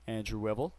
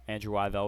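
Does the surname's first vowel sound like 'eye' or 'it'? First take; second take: it; eye. First: The surname's first vowel sounds like 'it'. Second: The surname's first vowel sounds like 'eye'. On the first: The speaker calls it right. "is actually pronounced Wivel" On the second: The speaker calls it wrong. "Sorry for the mispronunciation"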